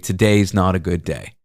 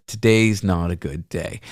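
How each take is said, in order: First: Mild retold vulnerability; vulnerable. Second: Mild retold sadness; soft, slow and a little low; quiet sad quote. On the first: Driver confiding to passenger, a touch vulnerable. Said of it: "He said very vulnerably". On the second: Driver telling passenger his day is bad, quietly. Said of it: "and he said".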